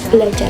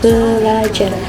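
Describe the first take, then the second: First: No vowel is heard between the b and l. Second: A vowel is heard between the b and l. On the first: The speaker calls it wrong. "bukanlah belajar" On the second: The speaker calls it right. "melainkan belajar. Setelah huruf b ada huruf e-nya"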